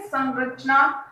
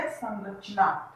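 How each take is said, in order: First: संरचना said slowly with a nasal sam; drawn-out nasal sam. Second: संरचना said slowly and quietly, nasal sam drawn out; slow answer word. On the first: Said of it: "तो उच्चारण यहाँ पे है". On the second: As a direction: draw out संरचना softly, nasal first syllable. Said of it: "तो क्या बन गया?". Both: Shown as a demonstration.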